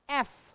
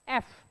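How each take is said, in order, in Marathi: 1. तो थेट स्वराच्या ध्वनीने सुरू होतो. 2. तो थेट स्वराच्या ध्वनीने सुरू होतो.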